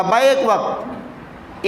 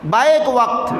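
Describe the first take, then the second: First: बैक वक्त drawn out very slowly, each word weighed; slow emphasis. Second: Said in the usual way. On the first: Shown as a demonstration. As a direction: lean on बैक वक्त, stretch it so it sinks in. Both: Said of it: "बैक वक्त याद रखिएगा".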